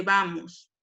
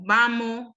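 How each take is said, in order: First: Said in the usual way. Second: Vamos said vamo, final s gone; dropped final s. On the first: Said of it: "en vez de vamos". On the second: Shown as a demonstration. Teacher showing coastal speech, vamos said as vamo. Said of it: "o vamos en vez de vamos".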